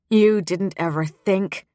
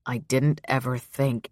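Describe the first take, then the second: First: "You" hit higher and harder, as a correction; correcting, stress on You. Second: Said in the usual way. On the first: A narrator's reading. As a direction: punch "You" to throw the blame back. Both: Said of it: "Petra corrected".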